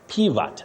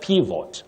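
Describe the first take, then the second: First: The second vowel is a weak 'uh' sound. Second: The second vowel is a full 'o' sound. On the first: The speaker calls it right. "The O takes the weak sound uh" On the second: The speaker calls it wrong. "not pivot"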